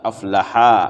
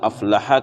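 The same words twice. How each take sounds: First: The final vowel is drawn out long. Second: The final vowel is short. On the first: Two people became successful. The speaker calls it wrong. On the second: One person became successful. The speaker calls it right.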